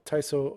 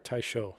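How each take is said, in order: First: The middle consonant is a plain s sound. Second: The middle consonant is an sh sound. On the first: The speaker calls it wrong. "Sorry, said that wrong" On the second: The speaker calls it right. "or Taisho"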